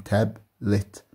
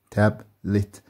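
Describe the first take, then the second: First: تابلت drawn out slowly, split into its two syllables تاب and لت. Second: Said in the usual way. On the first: Shown as a demonstration. Teacher slowly splitting تابلت into two syllables for pupils. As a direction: stretch تابلت so each syllable is heard. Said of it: "زي ما احنا شايفين مقطعين". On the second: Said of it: "بتنطق كلها على بعضها تابلت".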